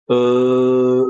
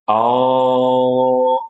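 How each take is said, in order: First: An unrounded eh-like vowel with flat lips. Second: An open oh-like vowel with lips too wide. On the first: "kalau kita nggak buat seperti itu, maka bunyinya bisa seperti ini" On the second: "atau terlalu lebar. Oh, ini juga salah"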